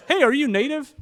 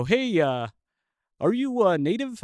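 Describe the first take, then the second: First: Hammed-up Canadian accent, much higher and louder, rising on hey; a second, bigger go at the Canadian accent. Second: A lightly put-on Canadian accent, rising on native; half-hearted imitation of a Canadian local's accent; bad Canadian accent. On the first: Canadian guy at the bar asking if he's native, in a hammed-up Canadian accent. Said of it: "this is a bad accent". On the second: Local Canadian guy quizzing the visitors, in a weak Canadian accent. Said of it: "Uh, this is a bad accent".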